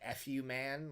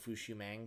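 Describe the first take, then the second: First: It sounds like slurred separate words 'f you man'. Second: It sounds like one word 'fushumang'. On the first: Someone else says it is meant this way. "Someone said it's supposed to be like "f you man," like like like like a slurred" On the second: This is how the speaker has always said it. "but I always pronounced it Fushumang"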